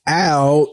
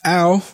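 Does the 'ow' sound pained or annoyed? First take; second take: pained; annoyed. First: It sounds pained, as if unbearable. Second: It sounds annoyed and warning.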